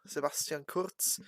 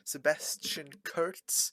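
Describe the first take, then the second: First: The name is said with German pronunciation. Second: The name is said with English pronunciation.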